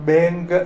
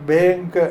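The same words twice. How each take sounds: No difference in how they are said.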